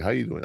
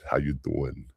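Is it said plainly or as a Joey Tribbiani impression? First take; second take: plainly; Joey impression. First: It is said as a plain everyday greeting. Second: It is said in Joey Tribbiani's flirty voice.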